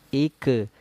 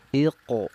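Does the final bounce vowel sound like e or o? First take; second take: e; o. First: The final bounce has a thin e-like vowel. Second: The final bounce has a thick o-like vowel. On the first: The speaker calls it wrong. "jangan ik, ike" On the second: The speaker calls it right. "tapi iqo"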